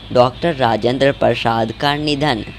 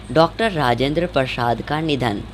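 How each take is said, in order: No difference in how they are said.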